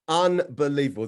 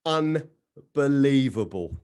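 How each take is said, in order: First: Said in the usual way. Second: "Unbelievable" stretched very slowly; slow drawn-out unbelievable. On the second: Real, not acted. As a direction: draw out "Unbelievable" in disbelief.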